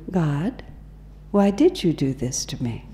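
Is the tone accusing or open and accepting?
accepting. It sounds calm, open and accepting. The speaker sincerely seeks the lesson in what happened. The speaker calls it right.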